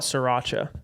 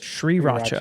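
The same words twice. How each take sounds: First: It begins without a clear S-R sound. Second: It begins with a clear S-R sound. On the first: The speaker calls it wrong. "obviously I call it sriracha. It's not that's not how you say it" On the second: The speaker calls it right. "it's like S R"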